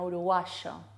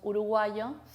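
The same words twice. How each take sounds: First: The consonant before the last vowel sounds like 'sh'. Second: The consonant before the last vowel sounds like 'y'. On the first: This is how Rioplatense speakers say it. "sino uruguayo" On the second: This is how other Spanish speakers say it. "No decimos uruguayo"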